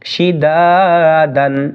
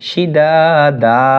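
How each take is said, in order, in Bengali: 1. শব্দটি শেষ হয়েছে একটি শেষ 'n' ধ্বনি দিয়ে। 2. শব্দটি শেষ হয়েছে একটি দীর্ঘ করা 'a' স্বরধ্বনি দিয়ে।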